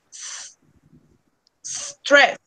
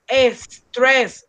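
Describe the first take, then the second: First: The word begins directly with the s sound. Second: An extra vowel sound comes before the s. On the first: The speaker calls it right. "No, you say" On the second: The speaker calls it wrong. "is not like in Spanish that you say"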